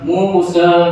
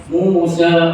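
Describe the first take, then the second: The two takes are said the same way.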